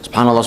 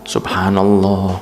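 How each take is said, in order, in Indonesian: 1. Kata itu dibaca sangat cepat secara beruntun. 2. Kata itu dibaca dengan lambat dan panjang. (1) "tapi jangan terlalu cepat" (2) "kalau baca subhanallah tidak mau cepat"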